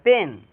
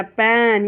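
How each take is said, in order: First: "पेन" with a brief e; short sound. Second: "पेन" drawn out on the vowel; long sound. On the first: Teacher contrasts the sounds, short "पेन". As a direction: keep the vowel of "पेन" short. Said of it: "ये हो जाएगा short sound". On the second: Teacher contrasts the sounds, long "पेन". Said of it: "ये हो जाएगा long sound". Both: Shown as a demonstration.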